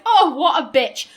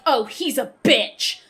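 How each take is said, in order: First: It is said in a jokey, jovial tone. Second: It is said in a hostile, insulting tone.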